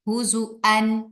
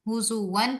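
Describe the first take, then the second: First: The middle consonant is a glottal stop. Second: The middle consonant is a w sound. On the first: "हुज़ुअन हमजा के साथ" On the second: "हुज़ुवन पढ़ते हैं हफ्स"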